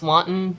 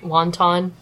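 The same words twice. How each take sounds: First: It does not sound like the dumpling word. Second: It sounds like the dumpling word. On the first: The speaker calls it right. "it's wanton" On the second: The speaker calls it wrong. "not wanton"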